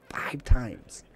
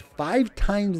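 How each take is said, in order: First: Breathy emphatic whisper of the number. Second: Said in the usual way. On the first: Acted. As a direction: whisper it for dramatic effect.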